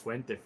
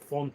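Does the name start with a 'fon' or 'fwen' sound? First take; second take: fwen; fon. First: It begins with a 'fwen' sound. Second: It begins with a 'fon' sound. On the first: The speaker calls it right. "Fuente is Fuente" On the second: The speaker calls it wrong. "not Fonte"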